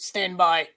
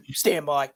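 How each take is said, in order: First: Lightly put-on Boston accent; a quick stab at a Boston guy saying stand by; Richie from Boston voice. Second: Put-on Boston accent retry. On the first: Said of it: "In my Richie from Boston voice". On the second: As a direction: clear the throat, then a second go at a Boston accent. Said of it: "Hold on, that was horrible".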